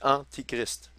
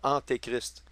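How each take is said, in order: First: The vowel after 'ant' sounds like 'ee'. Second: The vowel after 'ant' sounds like 'ay'. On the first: Someone who is against Christ. The speaker calls it right. "C'est Antichrist" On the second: Someone who comes before Christ. The speaker calls it wrong. "je prononce toujours Antéchrist, parce que j'ai été habitué de le dire sans réfléchir"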